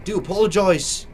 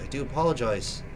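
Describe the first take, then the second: First: Put-on "apologize" said as "a-POL-o-joyz" in an odd accent, a bit louder; a stray put-on accent on "apologize"; sudden odd accent. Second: Said in the usual way. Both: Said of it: "Don't know where this accent came from".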